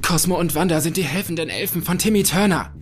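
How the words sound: It is said in a very excited way.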